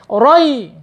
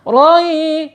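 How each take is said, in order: First: The word is cut off with a sharp jolt. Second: The word is said smoothly and gently. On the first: The speaker calls it wrong. "tidak boleh roi. Tidak boleh dihentak" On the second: The speaker calls it right. "harus lembut"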